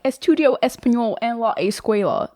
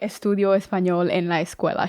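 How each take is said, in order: First: It is spoken with a strong American accent. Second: It is spoken with a native-sounding Spanish accent. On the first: The speaker clearly does not speak Spanish. The speaker calls it wrong. "She would have been like" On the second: The speaker sounds fluent in Spanish. The speaker calls it right. "you basically said that without an accent"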